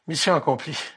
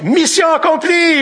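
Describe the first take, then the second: First: It is said wearily, with a relieved sigh. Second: It is said brightly, with excited energy. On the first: The task was exhausting and it is a relief to finish. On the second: The task was thrilling and finishing it feels great.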